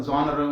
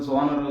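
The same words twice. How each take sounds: The two takes are said the same way.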